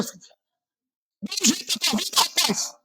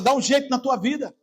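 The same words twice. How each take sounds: First: High, strained yell at the listener; shouted rebuke. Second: Said in the usual way. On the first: Shown as a demonstration. Preacher demonstrating how he yells at a sleeping listener. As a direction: cry it out to jolt a sleeper awake. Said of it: "Aí eu falo". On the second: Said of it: "Eu podia falar assim".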